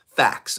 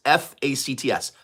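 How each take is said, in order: First: Said in the usual way. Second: "F A C T S" spelled letter by letter. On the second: Shown as a demonstration. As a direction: spell out "F A C T S" one letter at a time.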